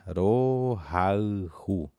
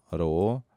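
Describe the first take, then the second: First: "Rohaihu" drawn out very slowly, syllable by syllable; very slow and spaced. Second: Said in the usual way. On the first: Shown as a demonstration. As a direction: spell it out for the class. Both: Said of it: "vou falar novamente a pronúncia bem pausada".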